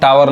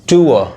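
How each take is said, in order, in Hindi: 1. पहला स्वर 'ow' जैसा सुनाई देता है। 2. पहला स्वर 'oo' जैसा सुनाई देता है। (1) "इसको हम टावर नहीं पढ़ेंगे" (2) "टूअर पढ़ेंगे"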